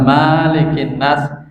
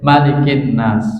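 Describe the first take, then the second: First: The first vowel after the m is long. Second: The first vowel after the m is short. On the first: The speaker calls it wrong. "secara riwayat salah" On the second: The speaker calls it right. "dibaca pendek ya"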